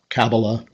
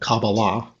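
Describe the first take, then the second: First: The stress is on the first syllable. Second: The stress is on the third syllable. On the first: "with the accent on each of them" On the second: "with the accent on each of them"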